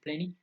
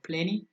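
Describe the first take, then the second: First: The T after the N is dropped. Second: The T after the N is clearly pronounced.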